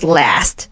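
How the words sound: It is said in an American accent. "The American sound is last"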